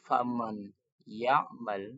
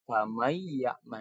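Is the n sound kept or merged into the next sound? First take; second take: kept; merged. First: The n sound is clearly pronounced. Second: The n merges into y, held and nasalized. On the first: "yang awal bacaannya itu" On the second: "nunnya menjadi ya dan ditahan dengan dengung"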